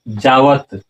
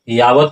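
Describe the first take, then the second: First: The word begins with a j sound. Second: The word begins with a y sound. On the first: The speaker calls it right. "इसलिए यहाँ उच्चारण क्या होगा?" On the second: The speaker calls it wrong. "अगर यहाँ आप यावत उच्चारण करते हैं तो गलत होगा।"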